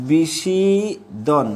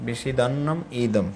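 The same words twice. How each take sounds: First: বিষিদন drawn out very slowly as a broken-off word; বিষিদন very slowly, cut off; wrong split. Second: বিষিদন্নম ইদম with the double n held, then ইদম apart; বিষিদন্নম ইদম, softly and slowly; correct split. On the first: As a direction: stretch বিষিদন and stop before ইদম. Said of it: "অনেকে উচ্চারণটা ভুল করে". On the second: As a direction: join বিষিদন্নম and say ইদম as its own word. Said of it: "এখানে দুইটার confusion আছে". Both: Shown as a demonstration.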